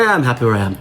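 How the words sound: It is said in a flat, resigned tone. The speaker is settled and does not want to change. The speaker calls it wrong. "Not with a, eh"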